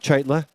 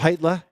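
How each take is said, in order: First: The name starts with the C sound. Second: The name starts without the C sound. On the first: The speaker calls it wrong. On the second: The speaker calls it right. "The C is silent in his name"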